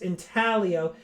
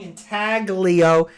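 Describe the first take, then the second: First: The word is said with an Italian pronunciation. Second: The word is said with an English pronunciation. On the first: The speaker calls it right. "It's Italian. It should be pronounced Intaglio" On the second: The speaker calls it wrong. "all of us have been saying Intaglio"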